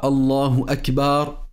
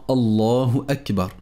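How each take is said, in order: First: The b sound in Akbar is drawn out. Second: No sound in the phrase is drawn out. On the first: The speaker calls it wrong. "Ni celui de la lettre Ba du mot Akbar" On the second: The speaker calls it right. "bien prononcer la takbira"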